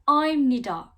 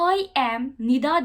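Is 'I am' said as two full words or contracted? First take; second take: contracted; full. First: I and am merge into one short syllable. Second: I and am are said as two full words. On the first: "I'm Nida dediğiniz zaman daha hızlı bir şekilde konuşmuş oluyorsunuz" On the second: "demek yerine"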